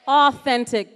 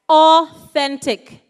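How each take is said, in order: First: Said in the usual way. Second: Authentic stretched very slowly and louder; drawn-out emphasis. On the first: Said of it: "Were you listening". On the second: Shown as a demonstration. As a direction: lean into Authentic, slow and deliberate. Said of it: "repeats the word for emphasis".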